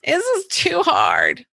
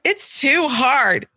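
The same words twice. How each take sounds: First: Put-on whiny child. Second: Slow, whining daughter's complaint; whiny child. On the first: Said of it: "my little phrase". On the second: Retold or imitated. Daughter complaining about schoolwork, slow and whiny. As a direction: drag it out like a sulky kid. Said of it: "the dance that you're usually doing".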